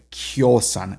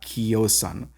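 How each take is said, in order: First: The i is a y-like glide before o. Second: The i is a full vowel before o. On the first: The speaker calls it right. "it's going to be pronounced like the ya j sound" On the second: The speaker calls it wrong. "and not"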